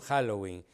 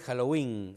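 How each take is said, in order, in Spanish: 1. El acento cae en la primera sílaba. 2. El acento cae en la última sílaba. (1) "acá decimos Halloween. Eso también es un defecto"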